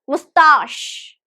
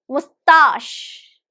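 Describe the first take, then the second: The two takes are said the same way.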